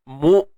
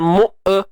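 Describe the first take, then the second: First: The syllable ends with the voice held back. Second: The syllable trails off into an extra vowel. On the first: The speaker calls it right. "itu syiddah, tahan suara" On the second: The speaker calls it wrong. "jangan mu e. Tak mau"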